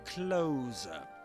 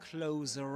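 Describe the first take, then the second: First: No r sound is heard at the end. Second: A linking r sound is heard at the end. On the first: "you don't pronounce the letter R at the end" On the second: "We can pronounce this letter R and say closer eye"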